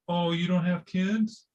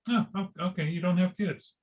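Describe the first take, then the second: First: It sounds shocked and judgmental. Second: It sounds casual and accepting.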